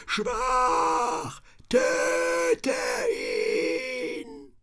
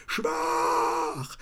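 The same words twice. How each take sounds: First: Much higher shrieking demonic cry; shrill demonic shout. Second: Much higher eerie whispered taunt; whispered demonic mock. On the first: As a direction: scream it like a possessed thing. Demon voices taunt. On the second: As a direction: hiss it like a spirit. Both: A narrator's reading.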